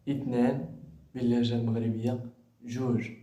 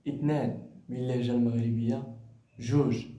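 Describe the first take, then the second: The two takes are said the same way.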